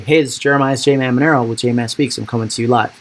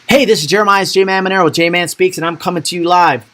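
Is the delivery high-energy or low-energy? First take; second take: low-energy; high-energy. First: It is said with low, flat energy. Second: It is said with high, lively energy.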